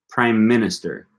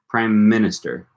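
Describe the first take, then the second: No difference in how they are said.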